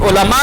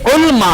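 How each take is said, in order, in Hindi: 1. L और M के बीच एक छोटा स्वर सुनाई देता है। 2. L और M बिना किसी स्वर के जुड़े हुए हैं। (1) "हालांकि लाम पर जबर है" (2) "यानी लाम पर जज़म पर"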